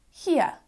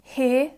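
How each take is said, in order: First: "here" as "hee-uh"; other pronunciation. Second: "here" with one long vowel; speaker's own accent. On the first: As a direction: glide "here" into two parts. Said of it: "could also sound like". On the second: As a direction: hold "here" without a glide. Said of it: "could also sound like here". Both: Shown as a demonstration.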